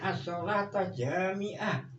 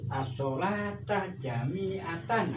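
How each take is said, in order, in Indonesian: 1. Kata terakhir berakhir terpotong dengan 'ah'. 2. Kata terakhir berakhir dengan 'atan' secara penuh. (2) "harus dibaca ini"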